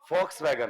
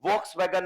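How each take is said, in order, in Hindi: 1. यह शब्द F ध्वनि से शुरू होता है। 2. यह शब्द V ध्वनि से शुरू होता है। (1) "होता है" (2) "नहीं होता है"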